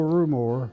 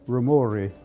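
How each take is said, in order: First: The surname is said with an American pronunciation. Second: The surname is said with an Italian pronunciation. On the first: This is how people usually say it. The speaker calls it wrong. "everybody calls me Joe, [name]" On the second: This is the original Italian pronunciation. The speaker calls it right. "if it were pronounced correctly, it would be Rumori"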